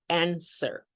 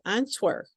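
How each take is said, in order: First: The W in the middle is not pronounced. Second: The W in the middle is pronounced. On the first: The speaker calls it right. "the W is absolutely silent. So we say answer" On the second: The speaker calls it wrong. "we don't say"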